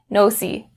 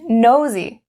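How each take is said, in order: First: The middle consonant is a hissing s sound. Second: The middle consonant is a buzzing z sound. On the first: The speaker calls it wrong. "Don't change it to the s, s sound. Don't say no c" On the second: The speaker calls it right. "No z, z, nosy"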